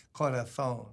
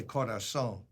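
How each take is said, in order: First: Corazón said corathón with a lisp. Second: Corazón with a clear s, corasón; plain corazón. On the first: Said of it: "I don't wanna say". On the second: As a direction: say corazón with a clean s, no lisp. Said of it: "I wanna say". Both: Shown as a demonstration.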